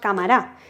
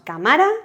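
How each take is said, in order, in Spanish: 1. El acento está en la última sílaba. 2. El acento está en la segunda sílaba. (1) "ni decimos" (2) "ni decimos"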